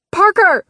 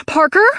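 First: Shouted high, falling; shouting his name. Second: Loud, high, rising question; anxious calling. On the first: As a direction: scream his name in panic. Fire, she screams his name. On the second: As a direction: call his name, rising in alarm. He doesn't respond, anxious call. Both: A narrator's reading.

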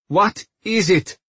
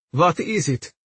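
First: "What is it?" higher and firmer, word by word; insistent repeat. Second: Higher, timid question; trembling voice. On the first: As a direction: press the question "What is it?" with a raised IS. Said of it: "she repeated". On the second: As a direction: ask it with a nervous tremble. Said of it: "voice trembling". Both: A narrator's reading.

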